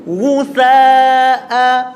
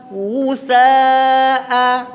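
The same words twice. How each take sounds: The two takes are said the same way.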